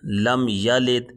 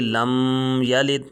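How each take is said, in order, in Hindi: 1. "m" सादगी से छोड़ा जाता है, नासिका से रोके बिना। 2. "m" को नासिका की गुंजन के साथ रोका जाता है।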